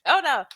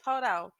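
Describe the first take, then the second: First: Bursting out laughing. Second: Said in the usual way. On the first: Real, not acted. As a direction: laugh hard, then get the words out. Bursts out laughing reading the text.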